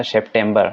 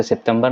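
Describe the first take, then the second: First: सितंबर with a hard retroflex t, like टा; teacher models सितंबर with the retroflex टा; correct pronunciation. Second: The wrong way: सितंबर with dental ता; सितंबर said with a dental t sound; wrong reading. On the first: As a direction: say सितंबर as sep-ṭem-ber, retroflex टा. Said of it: "टा निकलेगा, ठीक है, not ता". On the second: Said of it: "इसे सितंबर नहीं पढ़ना है". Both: Shown as a demonstration.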